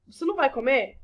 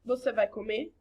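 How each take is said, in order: First: Pointed negative question on "Você não vai comer?"; questioning intonation. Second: Said in the usual way. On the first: Shown as a demonstration. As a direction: ask "Você não vai comer?" with more push and a falling end. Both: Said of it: "independente da minha entonação".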